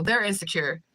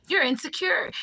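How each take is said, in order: First: Said in the usual way. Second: Mock quote pitched higher, condescending; mocking accuser. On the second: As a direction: mimic a preachy accuser. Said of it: "and they say".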